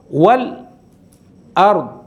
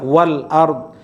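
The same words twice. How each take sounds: First: A brief silent stop comes before 'ard'. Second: A glottal catch begins 'ard' without a pause. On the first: "jadi ada saktahnya dulu" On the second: "kita baca biasa wal ard"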